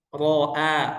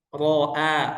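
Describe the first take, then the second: First: The r is said thick and heavy. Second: The same.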